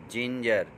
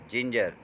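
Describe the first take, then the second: No difference in how they are said.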